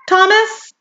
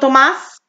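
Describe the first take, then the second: First: The name is said with a plain English pronunciation. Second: The name is said in a New Mexico style.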